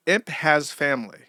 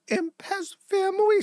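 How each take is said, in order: First: Said in the usual way. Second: Very high, squeaky mock imp voice; mock her with a tiny, squeaky creature voice; squeaky house-elf impression; Dobby. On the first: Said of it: "as the character saying". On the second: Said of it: "She's talking like Dobby".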